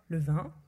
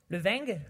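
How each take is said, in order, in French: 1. Vin se termine par une voyelle nasale simple. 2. Vin se termine par un son g ajouté.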